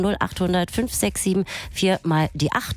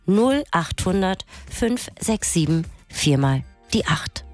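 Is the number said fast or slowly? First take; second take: fast; slowly. First: The number is said fast. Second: The number is said slowly.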